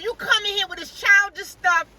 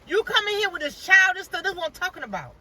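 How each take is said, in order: First: High, louder mock scolding of a childish lawyer; imitated hollering. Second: High mock scolding, trailing down at the end; imitated hollering. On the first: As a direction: play the judge scolding, pitched up and raised. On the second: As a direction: repeat the judge's scolding, pitched up. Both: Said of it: "She was hollering at her".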